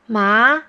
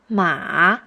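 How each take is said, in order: First: It is said with the second tone. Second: It is said with the third tone.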